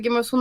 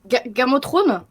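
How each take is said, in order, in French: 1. Il est prononcé avec une prononciation anglaise naturelle. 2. Il est prononcé avec une prononciation française marquée. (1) "tu as un peu trop bien prononcé Game of Thrones" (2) "Est-ce que tu pourrais mal le prononcer"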